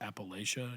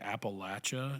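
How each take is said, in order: First: It uses the non-local pronunciation of the word. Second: It uses the local regional pronunciation of the word. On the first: The speaker sounds like someone from outside the region. The speaker calls it wrong. "not Appalachia" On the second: The speaker sounds like someone from the region. The speaker calls it right. "you will sound more local"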